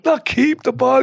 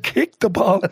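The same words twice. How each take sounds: First: "keep" hit firmly, higher pitched; stress on keep. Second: "Kick" set out clearly as the misheard word; stress on Kick. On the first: Assistant correcting the misheard shout, stress on "keep". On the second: Assistant explaining the keeper's mishearing, stress on "Kick". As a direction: contrast "Kick" with keep. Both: Retold or imitated. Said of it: "he thought you said".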